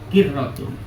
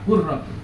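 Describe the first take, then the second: First: The first vowel is an i sound. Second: The first vowel is a u sound. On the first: "huruf qaf dibaca kasroh" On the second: "ada yang baca doma"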